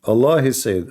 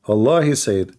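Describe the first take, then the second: No difference in how they are said.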